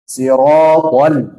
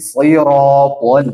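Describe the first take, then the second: First: Sirotol slow, the l not veered; wrong inhirof. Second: Sirotol with the l veered to the side, slow; correct inhirof. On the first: Teacher showing a wrong sirotol. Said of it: "Jangan sirotol". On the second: Teacher showing the right sirotol. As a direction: say sirotol with the tongue sliding sideways. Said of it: "Tapi sirotol". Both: Shown as a demonstration.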